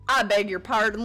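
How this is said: It is read in a put-on Southern accent.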